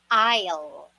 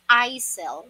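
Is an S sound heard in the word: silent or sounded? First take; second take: silent; sounded. First: No S sound is heard in the word. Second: An S sound is heard in the word. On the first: The speaker calls it right. "silent po ang S dyan. It is pronounced as aisle" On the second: The speaker calls it wrong. "Some people usually pronounce this as aisle, which is wrong"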